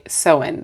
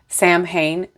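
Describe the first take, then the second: First: The middle is said with a w sound. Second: The middle is said with an m-h sound. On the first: The speaker calls it right. "get my brain to say Samhain" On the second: The speaker calls it wrong. "to stop saying Samhain"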